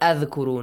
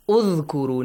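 First: The word begins with an a vowel. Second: The word begins with a u vowel. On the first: The speaker calls it wrong. "not Adhkuru" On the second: The speaker calls it right. "A Dhamma on the top? Udhkuru"

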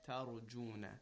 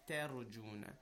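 No difference in how they are said.

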